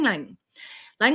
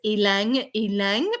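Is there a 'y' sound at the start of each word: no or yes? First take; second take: no; yes. First: Each word begins with an 'l' sound. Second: Each word begins with a clear 'y' sound. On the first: The speaker calls it right. "it actually has a mostly silent Y" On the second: The speaker calls it wrong. "you might have once pronounced this oil as"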